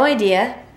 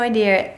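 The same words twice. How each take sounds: First: It is said in a plain accent. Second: It is said in a Boston accent.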